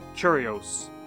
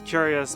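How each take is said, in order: First: The word is said in a changed form, 'curios'. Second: The word is said in its usual form, 'curious'. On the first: This is how the computer voice mispronounces it. The speaker calls it wrong. "but it says curios" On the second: This is the word that was intended. The speaker calls it right. "it says curious"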